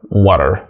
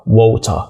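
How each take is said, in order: First: It is said with an American accent and D-like T. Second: It is said with a British accent and clear T. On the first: "فبالأمريكي طبعا" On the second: "ديتي بالبريطاني"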